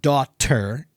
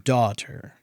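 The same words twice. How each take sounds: First: The T is said strongly and hard. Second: The T is said lightly and softly. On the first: The speaker calls it wrong. "It's not daughter" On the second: The speaker calls it right. "There's a t- t- light T"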